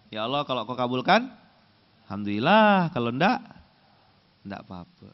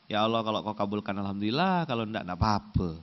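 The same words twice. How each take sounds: First: Careless shrug of a prayer, fading away; indifferent prayer. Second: Half-hearted prayer. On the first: Preacher mimicking a lazy worshipper, shrugging. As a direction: pray as if you don't care if it's answered. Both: Shown as a demonstration. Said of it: "Gimana intonasinya?".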